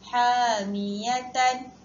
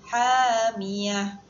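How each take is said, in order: First: The word ends with a t sound and vowel. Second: The word ends with an h sound. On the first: The reading continues without stopping. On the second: The reader stops at this word.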